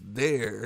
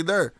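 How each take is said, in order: First: "there" said the standard way, lower, as the correction; corrected standard pronunciation. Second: "there" said his own way, as "thurr"; own dialect pronunciation. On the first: Retold or imitated. Imitating those who corrected his speech, standard pronunciation. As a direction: say "there" to rhyme with "air". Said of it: "They used to be like". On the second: Shown as a demonstration. Showing listeners how he says it, own dialect pronunciation. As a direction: say "there" with the vowel of "her". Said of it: "trying to correct my speech. I say".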